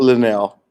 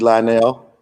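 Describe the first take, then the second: First: The name begins with a 'lin' sound. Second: The name begins with a 'lie' sound. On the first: "She like it's Linnell" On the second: "ethnic pronunciation"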